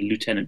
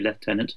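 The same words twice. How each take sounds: First: Lieutenant is said with an American pronunciation. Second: Lieutenant is said with a British pronunciation. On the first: "in the American pronunciation" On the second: "although we would otherwise say"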